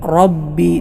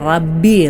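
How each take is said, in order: First: The r is heavy and fills the mouth. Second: The r is light and thin. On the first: The speaker calls it right. "തടുപ്പിച്ചുകൊണ്ട് അഥവാ റ റ എന്ന രൂപത്തിലാണ് ഉച്ചരിക്കേണ്ടത്" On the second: The speaker calls it wrong. "ചിലരിവിടെ റബ്ബി എന്നോതും, ... അങ്ങനെയല്ല"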